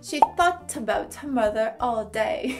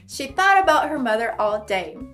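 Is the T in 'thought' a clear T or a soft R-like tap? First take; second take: clear T; R-like tap. First: The T is pronounced as a clear T sound. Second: The T is softened into a quick R-like tap. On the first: "na pronúncia britânica" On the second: "esse T no final de thought vai se formar um R"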